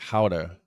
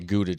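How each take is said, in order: First: Gouda is said with a Dutch-style pronunciation. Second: Gouda is said with an English-style pronunciation. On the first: This is how it is said where it came from. "the way it's supposed to be pronounced is more like Gouda cheese" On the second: This is how people here commonly say it. "they say Gouda cheese"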